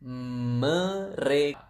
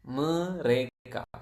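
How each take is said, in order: First: Very slow, syllable by syllable; slow model word. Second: Said in the usual way. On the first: Shown as a demonstration. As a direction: stretch each syllable of "Mereka" for the learner. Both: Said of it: "How do you say they?".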